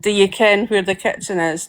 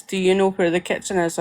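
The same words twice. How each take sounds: First: "ken" in place of know, said naturally; East Coast Scots. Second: Said in the usual way. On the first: Shown as a demonstration. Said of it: "ken instead of know". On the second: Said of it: "we don't say no on the East Coast".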